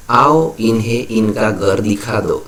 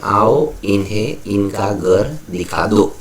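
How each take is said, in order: First: Said in the usual way. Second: "आओ" set apart with a pause, the rest in measured groups; punctuated reading. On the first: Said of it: "तो ये ऐसे लिखा जाता है". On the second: Shown as a demonstration. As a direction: pause after "आओ", then spell out the phrasing up to "दिखा दो". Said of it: "ऐसे लिखा जाता है". ("आओ" के बाद रुककर, शब्दों को अलग-अलग पढ़ें)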